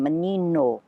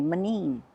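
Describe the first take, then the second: First: Menino with the final O clearly sounded; full pronunciation. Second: Manin, the final O of menino dropped; Azorean pronunciation. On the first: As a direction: say menino with every vowel, ending on O. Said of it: "there's an O at the end". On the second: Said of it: "We don't pronounce". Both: Shown as a demonstration.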